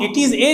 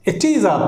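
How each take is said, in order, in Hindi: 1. अंतिम 'a' एक पूर्ण 'ay' स्वर है। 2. अंतिम 'a' एक कमज़ोर, बिना स्ट्रेस वाला 'uh' है। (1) "तो इसको हम इट इज ए नहीं पढ़ते हैं" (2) "बल्कि it is अ it is अ पढ़ते हैं इस तरह से"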